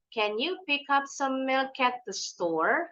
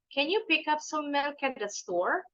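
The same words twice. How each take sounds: First: It is said slowly. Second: It is said a little faster.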